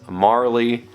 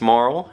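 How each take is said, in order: First: The name is said with two syllables. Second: The name is said with one syllable. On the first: The speaker calls it wrong. "who I always pronounce as Marley growing up" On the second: The speaker calls it right. "from what I understand, it's Marl"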